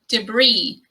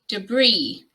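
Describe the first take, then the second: First: The stress is on the second syllable. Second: The stress is on the second syllable.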